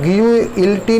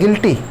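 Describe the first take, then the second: First: A 'yoo' sound follows the g. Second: No 'yoo' sound follows the g. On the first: The speaker calls it wrong. "ग्यूइल्टी नहीं कहेंगे हम" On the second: The speaker calls it right. "You की sound इसमें नहीं है"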